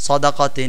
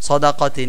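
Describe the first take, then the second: No difference in how they are said.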